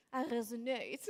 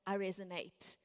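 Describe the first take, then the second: First: A hint of a sexy French accent on I resonate; lightly voiced French admirer saying I resonate. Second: Said in the usual way. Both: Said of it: "their sexy French accent".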